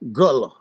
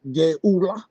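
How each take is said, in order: First: The first vowel is a short 'uh' sound. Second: The first vowel glides like 'geh-oo-la'. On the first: This is how the people actually say it. The speaker calls it right. "Gullah. You heard me?" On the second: This is how the reference book gives it. The speaker calls it wrong. "pronounced Geula. I don't like it. It don't sound that way"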